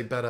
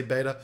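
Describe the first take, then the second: First: "Betta" said with a short e, as in "better"; short-e pronunciation. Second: "Beta" said with a long "ay" first vowel; long-a pronunciation. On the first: Explaining the word he can't get used to, "Betta" with a short e. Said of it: "convince my brain to say Betta". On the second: Admitting his habit to viewers, "Beta" said as BAY-ta. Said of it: "I just have to say Beta". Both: Shown as a demonstration.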